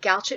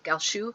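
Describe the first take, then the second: First: The name is pronounced the English way. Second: The name is pronounced the French way. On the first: "everybody said Galchet for so long" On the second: "the French pronunciation"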